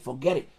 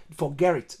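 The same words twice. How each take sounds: First: Said in the usual way. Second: "forget it" run together as "forgerrit"; casual slurred "forget it", like "forgerrit"; colloquial pronunciation. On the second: Shown as a demonstration. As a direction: roll the t of "forget it" into an r. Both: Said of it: "That's how some people say it".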